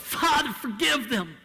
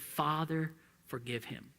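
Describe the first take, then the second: First: Yelled. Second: Soft and low, almost to himself; under his breath. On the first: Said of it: "He yelled". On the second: Preacher murmuring Jesus' prayer under his breath, quiet. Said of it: "didn't say that under his breath". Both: Shown as a demonstration.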